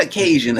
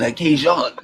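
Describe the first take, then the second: First: Said in the usual way. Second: Cajun with a French "zhon" ending; French accent. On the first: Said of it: "not a Cajun". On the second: Shown as a demonstration. Showing the proper way to say Cajun, French accent. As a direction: give Cajun a French-style open last vowel. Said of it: "say it in your French accent".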